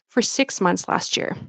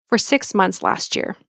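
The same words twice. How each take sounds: No difference in how they are said.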